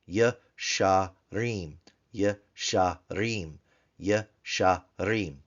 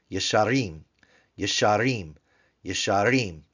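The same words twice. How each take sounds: First: "yasharim" slowly as ye, sha, reem; three separate syllables. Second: Said in the usual way. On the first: Shown as a demonstration. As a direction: clear gaps inside each "yasharim". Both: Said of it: "Three-syllable word".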